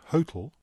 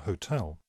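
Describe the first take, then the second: First: The stress is on the first syllable. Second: The stress is on the second syllable. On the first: "Is the stress on the first" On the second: "or the second syllable?"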